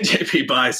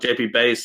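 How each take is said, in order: First: The surname rhymes with 'guys'. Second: The surname rhymes with 'days'. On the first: This is how the written name looks. The speaker calls it wrong. "it looks like you say" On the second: This is how the family says the name. The speaker calls it right. "is how they pronounce it"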